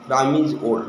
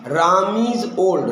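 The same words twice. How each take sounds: First: Said in the usual way. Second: Very slow, every word set apart; slow model sentence. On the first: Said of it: "Ram হচ্ছে বৃদ্ধ". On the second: Shown as a demonstration. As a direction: dictate it slowly to the class. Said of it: "আমি যদি বলি". (ধীরে ধীরে স্পষ্ট করে বলা উদাহরণ)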